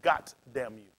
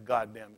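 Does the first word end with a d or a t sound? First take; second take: t; d. First: The first word ends with a t sound. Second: The first word ends with a d sound. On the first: "They say" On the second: "I've never heard anybody say"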